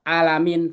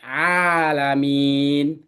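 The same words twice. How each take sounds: First: The vowel is said short, not drawn out. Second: The vowel is drawn out long. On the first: The speaker calls it wrong. "Kita nggak bisa baca alamin" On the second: The speaker calls it right. "tapi alamin"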